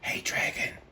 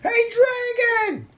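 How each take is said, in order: First: It is whispered very softly. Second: It is shouted very loudly.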